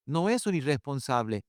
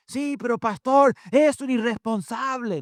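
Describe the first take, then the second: First: Said in the usual way. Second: High-pitched, loud parental complaint; indignant parent's protest, pitched high. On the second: Acted. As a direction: object to the pastor in a raised voice. Acts out a parent's objection.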